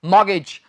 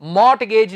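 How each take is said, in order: First: मॉर्गेज with no t, mor-gej; right pronunciation. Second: मॉर्टगेज with the t sounded, as students wrongly say; wrong pronunciation. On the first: Teacher gives the correct form, मॉर्गेज without t. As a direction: drop the t in मॉर्गेज. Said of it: "क्या है ये". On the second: Teacher mimics the common mistake, मॉर्टगेज with the t. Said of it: "मॉर्टगेज नहीं मेरे भाई". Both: Shown as a demonstration.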